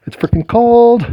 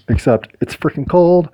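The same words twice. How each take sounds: First: Cold, squealing high complaint; high exasperated yelp. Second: Said in the usual way. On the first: Real, not acted. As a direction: shriek it out against the cold. Repeats louder and higher.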